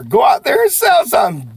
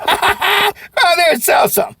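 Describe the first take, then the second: First: Loud, high rallying call; coach's closing shout; pep-talk shout. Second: High, loud while laughing; cheerful laughing goodbye; laughing sign-off. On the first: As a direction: send them off fired up. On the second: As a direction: laugh through the send-off. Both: Real, not acted. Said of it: "Do me a favor".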